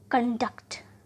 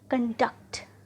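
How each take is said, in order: The two takes are said the same way.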